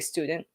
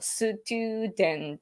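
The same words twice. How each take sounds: First: The consonants are said without extra vowels. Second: Extra vowels are added after the consonants. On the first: This is the usual English way. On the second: This is how Japanese speakers say it.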